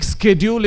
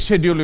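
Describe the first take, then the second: First: Schedule said with a hard sk, skedjul; schedule as skedjul, sk sound at the start; American schedule. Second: Schedule as shedjul, sh sound at the start; British schedule. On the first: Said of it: "is American". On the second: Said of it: "schedule is British". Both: Shown as a demonstration.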